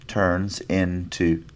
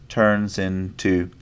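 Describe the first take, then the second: No difference in how they are said.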